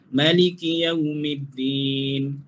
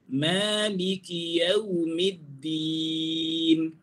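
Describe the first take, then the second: First: The first vowel of Maliki is short. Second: The first vowel of Maliki is long. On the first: The speaker calls it wrong. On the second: The speaker calls it right.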